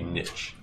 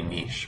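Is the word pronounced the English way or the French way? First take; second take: English; French. First: The word is pronounced in an English way. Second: The word is pronounced in a French way. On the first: "But English, it would be niche" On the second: "if you pronounce it like in the French way to pronounce things, it would be niche"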